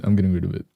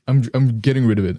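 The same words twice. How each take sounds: First: Said in the usual way. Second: "I'm, I'm getting rid of it" pitched up, brighter; higher voice. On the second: Real, not acted. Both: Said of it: "intermittently make my voice higher".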